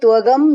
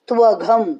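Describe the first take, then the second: First: The consonant is a plain unaspirated g. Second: The consonant is an aspirated gh. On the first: The speaker calls it wrong. "यहाँ पे त्वगम नहीं बोलना" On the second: The speaker calls it right. "यहाँ पे घ घर का आने देना घ"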